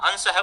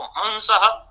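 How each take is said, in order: First: Said in the usual way. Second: हंसः with a drawn-out nasal first syllable; faulty anusvara. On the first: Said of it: "अनुस्वार के विषय में". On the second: Shown as a demonstration. Teacher showing faulty anusvara, long nasal in हंसः. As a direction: stretch the nasal vowel at the start of हंसः. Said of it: "इस तरीके का दोषपूर्ण उच्चारण".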